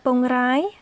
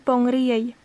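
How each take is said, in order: First: The last vowel sounds like 'ai'. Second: The last vowel sounds like 'iei'. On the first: The speaker calls it wrong. "on ne dit pas Pongrai" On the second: The speaker calls it right. "on dit Pongriei"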